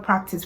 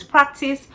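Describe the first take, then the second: First: Said in the usual way. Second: Practice repeated higher and drawn out; stress on practice. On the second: Shown as a demonstration. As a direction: lean on the word practice, holding the end. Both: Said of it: "I said the word practice".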